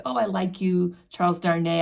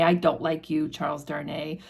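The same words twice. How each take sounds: First: Mock-friendly sing-song, lightly drunk; drunken fond taunt. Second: Put-on drunken sour taunt. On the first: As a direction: tease him as if tipsy and fond. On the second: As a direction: lower and fading, mock-sulky drunk. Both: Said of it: "obnoxious conversation where he's like".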